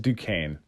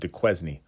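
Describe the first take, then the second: First: The name is pronounced with a French sound. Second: The name is pronounced as English spelling suggests. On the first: The speaker calls it right. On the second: The speaker calls it wrong.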